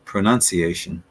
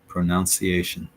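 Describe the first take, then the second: First: The second syllable sounds like 'nun'. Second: The second syllable sounds like 'noun'. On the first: The speaker calls it right. "the correct way of saying it" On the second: The speaker calls it wrong. "the incorrect way would be pronunciation ... pronounced more like that"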